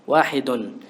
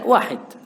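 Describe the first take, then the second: First: The word ends with a final -un syllable. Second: The word ends abruptly without the -un syllable. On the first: It shows the grammatical case vowel for learners. "untuk mengetahui barisnya apa itu" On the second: It is the natural way to say it in speech. "Tapi dalam pengucapan tidak, wahid"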